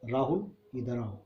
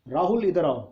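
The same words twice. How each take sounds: First: It is said softly and low. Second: It is shouted loudly.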